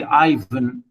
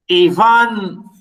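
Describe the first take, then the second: First: Ivan as EYE-vən, stressed on the first syllable; English pronunciation. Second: Ivan as ee-VAHN, stressed on the end; Russian pronunciation. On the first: Lecturer quoting how some people say it, Ivan as EYE-vən. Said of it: "some people say Ivan". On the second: Lecturer showing students the Russian name, Ivan as ee-VAHN. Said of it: "I am reading the name". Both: Shown as a demonstration.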